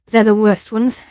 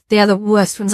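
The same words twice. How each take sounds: First: Said in the usual way. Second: The word "are" leaned on; stress on are. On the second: Shown as a demonstration. Streamer warning chat about the nuclear options, stressing "are". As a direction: press hard on "are".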